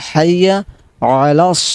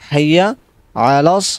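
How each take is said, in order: First: The first word starts with an h sound. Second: The same.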